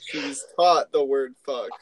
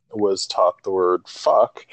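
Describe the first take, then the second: First: TAUGHT stressed, mimicking the other speaker; mimicking deliberate phrasing. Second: Slowly, as if describing formal instruction; measured, deliberate telling; slow, deliberate phrasing. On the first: Friend teasing a dad's choice of words, stressing "taught". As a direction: lean on "taught" as a mock-formal word. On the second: Real, not acted. Dad recalling his daughter learning a swear word, slow and deliberate. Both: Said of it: "the way you said that".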